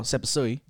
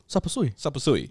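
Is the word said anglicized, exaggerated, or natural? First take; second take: anglicized; natural. First: It is said in a flat, anglicized pronunciation. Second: It is said with a natural, fitting native pronunciation. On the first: The speaker makes no effort. The speaker calls it wrong. "you're not coming in saying oh sapasui... you just no effort" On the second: The speaker makes a respectful effort. The speaker calls it right. "what's the correct way of saying sapasui?"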